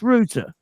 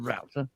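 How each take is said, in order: First: It is said the British way, like 'route'. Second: It is said the American way, unlike 'route'. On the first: The speaker calls it right. "it's router. It goes for the route" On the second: The speaker calls it wrong. "It's not router"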